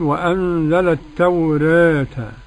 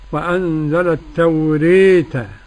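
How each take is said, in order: First: The long a leans slightly toward e. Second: The long a leans strongly toward e. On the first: "التخليل" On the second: "كيف تكون الإمالة"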